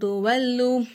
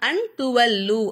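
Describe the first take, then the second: First: The n is hidden with a nasal sound. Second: The n is pronounced clearly and fully. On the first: The speaker calls it right. "இங்கே நம்ம குன்னா செஞ்சு ஓதணும்" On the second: The speaker calls it wrong. "அன் துவல்லு அப்படின்னு சொல்லாம"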